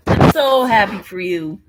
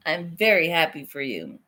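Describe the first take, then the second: First: Loud, gushing burst; really mean it, out loud; excited congratulations. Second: Calmer, lower and sincere; sincere congratulations. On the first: Friend congratulating the pregnant friend, loud and gushing. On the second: Friend congratulating the pregnant friend again, calm and sincere. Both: Real, not acted.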